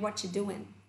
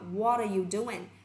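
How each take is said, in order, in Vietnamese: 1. Từ 'are' bị lược bỏ ở dạng rút gọn. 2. Mọi từ, kể cả 'are', đều được phát âm. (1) "nó chính là dạng shorten của câu trên" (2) "What are you doing thành what you doing"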